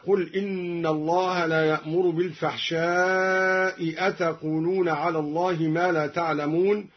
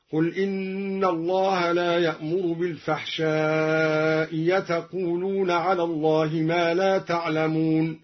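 First: Said in the usual way. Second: بالفحشاء أتقولون with the second hamza said as a pure ي; second hamza turned to a clear ya. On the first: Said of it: "بإبدال الهمزة الثانية ياء". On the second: Shown as a demonstration. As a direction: glide into yatuqulun. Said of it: "بإبدال الهمزة الثانية ياء خالصة هكذا".

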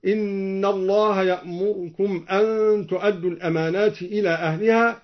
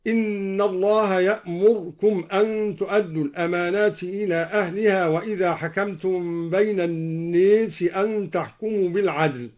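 First: يأمركم with the vowel on the r cut very short; barely touch the vowel after the r in يأمركم; اختلاس حركة الراء; snatched r vowel. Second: يأمركم with the r given no vowel at all, as يأمرْكم; إسكان الراء في يأمركم; silent r. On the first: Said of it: "باختلاس الراء وإسكانها هكذا". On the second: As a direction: close the r in يأمركم completely. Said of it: "وإسكانها هكذا". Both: Shown as a demonstration.

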